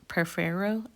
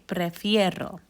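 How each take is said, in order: First: The stem vowel is a plain e. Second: The stem vowel is the diphthong ie. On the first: The speaker calls it wrong. "if you were to keep that at E, let's see if I can say it incorrectly" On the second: The speaker calls it right. "You see where it changed right there?"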